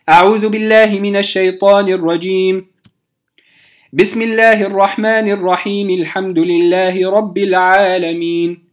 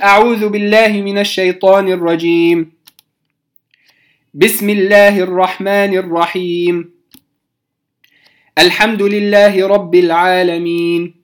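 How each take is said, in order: First: A pause follows the first phrase, the rest joins. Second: A pause comes after each of the three phrases. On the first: "قطعت أو وقفت على الاستعاذة، ثم وصلت البسملة بأول الفاتحة" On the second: "قطعت بين الاستعاذة والبسملة، ثم بين البسملة وأول الفاتحة"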